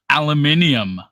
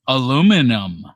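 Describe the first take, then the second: First: It is said the British way. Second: It is said the North American way. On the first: The speaker calls it wrong. "not aluminium" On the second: The speaker calls it right. "it says aluminum"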